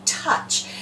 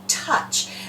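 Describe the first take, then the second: First: The vowel is a short uh sound. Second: The vowel is a short uh sound.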